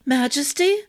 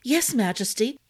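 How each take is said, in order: First: High, louder rising yelp on Majesty; startled yelp. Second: Said in the usual way. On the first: A narrator's reading. Arden woken by the king, startled high yelp. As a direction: jolt awake and yelp the title. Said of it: "Arden yelped".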